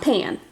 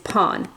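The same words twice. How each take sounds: First: The word is said with English vowel sounds. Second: The word is said with Japanese vowel sounds. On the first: The speaker calls it wrong. "not pan" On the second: The speaker calls it right. "the Japanese word for bread is pan"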